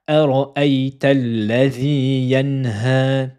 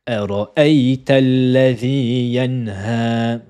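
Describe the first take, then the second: The two takes are said the same way.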